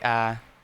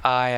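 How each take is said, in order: First: The vowel is flattened toward 'ah'. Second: The vowel is a full 'eye' diphthong. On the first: "I say ah a little bit" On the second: "instead of I"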